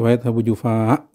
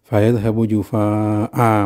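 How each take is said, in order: First: The last word ends cut short without a vowel. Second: The final vowel of the last word is lengthened. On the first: The speaker calls it wrong. "disukunkan ya" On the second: The speaker calls it right. "mestinya begitu ya"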